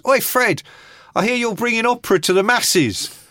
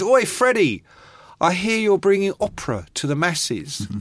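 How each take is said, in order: First: Loud, higher punk taunt; hammed-up Sid, higher and louder; imitating Sid. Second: Mock cheeky punk call, higher on the "Oi"; a hint of a taunting punk; lightly voiced Sid, higher opening; imitating Sid. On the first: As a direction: shout the jibe across the room, cocky. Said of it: "Sid comes in and he goes". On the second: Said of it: "and he goes".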